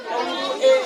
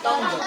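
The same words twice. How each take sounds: First: टोंगू ए read letter by letter as "ton-gu-e"; wrong literal reading. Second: टंग as one syllable, "tung"; correct silent-U reading. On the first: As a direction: sound out every vowel in टोंगू ए. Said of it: "यहाँ नहीं पढ़ेंगे टंग". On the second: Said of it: "क्या पढ़ेंगे". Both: Shown as a demonstration.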